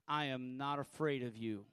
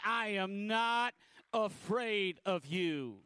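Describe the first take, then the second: First: It is said with ordinary, moderate force. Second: It is said with more force and energy.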